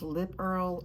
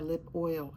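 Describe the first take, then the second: First: The second word sounds like 'earl'. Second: The second word sounds like 'oil'. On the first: "Sometimes I say Earl" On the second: "however you pronounce it"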